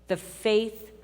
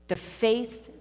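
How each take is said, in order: No difference in how they are said.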